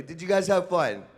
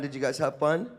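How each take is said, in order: First: Higher and louder, pumping the crowd up; louder, more enthusiastic. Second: Said in the usual way. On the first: Shown as a demonstration. Host asking the crowd to answer louder, rousing call. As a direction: ask it again with real energy. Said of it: "You're gonna have to do better". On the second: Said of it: "that didn't sound believable".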